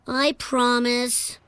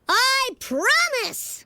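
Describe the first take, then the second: First: It is said calmly and sincerely. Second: It is said loudly with dramatic intensity.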